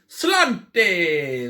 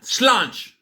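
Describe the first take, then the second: First: It is said without the local Irish pronunciation. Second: It is said with the local Irish pronunciation.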